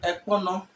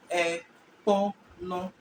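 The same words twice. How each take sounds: First: Said in the usual way. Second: Ekpono spoken slowly, each syllable E-kpo-no drawn out; slow teaching demo. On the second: Shown as a demonstration. Teacher to students, saying Ekpono slowly and clearly.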